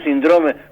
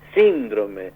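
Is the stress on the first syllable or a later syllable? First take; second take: later; first. First: The stress falls on a later syllable. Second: The stress falls on the first syllable. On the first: The speaker calls it wrong. "porque es un síndrome" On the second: The speaker calls it right. "es síndrome. Es una palabra de una sola acentuación esdrújula"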